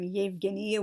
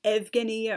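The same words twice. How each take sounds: First: Said in the usual way. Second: "Evgenia" with a plain E start, no Y glide; naive misreading. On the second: Shown as a demonstration. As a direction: say "Evgenia" as ev-GHEN-ee-a, as spelled. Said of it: "would look like it was pronounced".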